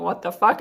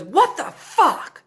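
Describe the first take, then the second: First: Said in the usual way. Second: High, slow, drawn-out furious outburst; mad yell. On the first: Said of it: "thinking about him yelling". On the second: Retold or imitated. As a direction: play the angry passenger three rows back. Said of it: "like, mad".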